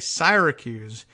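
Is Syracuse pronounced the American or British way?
British. Syracuse is said with a British pronunciation.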